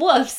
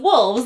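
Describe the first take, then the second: First: The word is said without an L sound. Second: The word is said with an L sound. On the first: The creatures sound nicer and less scary. "they seem nicer if you call them wolves" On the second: The creatures sound scarier. "instead of wolves"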